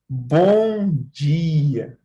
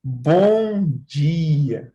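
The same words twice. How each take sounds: First: It is said in a warm, kind tone. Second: It is said in a warm, kind tone.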